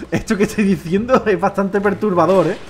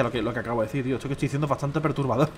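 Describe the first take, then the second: First: Slow, deliberate delivery; slow emphatic repeat. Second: Lower, softer admission; low aside. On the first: Streamer repeating that his joke is disturbing, slow and emphatic. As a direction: spell it out slowly for effect. Repeats it slowly after laughing. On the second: Streamer owning up that his joke is disturbing, low aside. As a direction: own up to it quietly. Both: Real, not acted.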